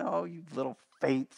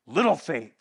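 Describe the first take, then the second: First: Softer, lower, fatherly "Oh, you little faith"; tender Papa Jesus. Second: Lower, louder scolding "Little faith"; angry Jesus. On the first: Preacher voicing Jesus comforting frightened disciples, tender. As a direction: coo it like a father soothing a scared child. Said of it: "Papa Jesus picking up his little ones". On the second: Preacher showing the wrong reading, Jesus scolding his disciples, angry. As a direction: hurl "Little faith" like a harsh rebuke. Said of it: "angry Jesus saying". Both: Shown as a demonstration.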